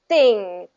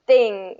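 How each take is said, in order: First: The th sound is tight and bursts out. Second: The same.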